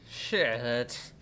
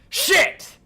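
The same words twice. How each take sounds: First: It sounds like mild annoyance at a stubbed toe. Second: It sounds like real horror and shock.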